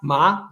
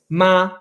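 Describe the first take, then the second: First: The pitch rises through the syllable. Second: The pitch stays high and level. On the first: "a tone that rises" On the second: "ma is the first tone"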